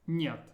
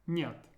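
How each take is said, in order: Both takes have the same delivery.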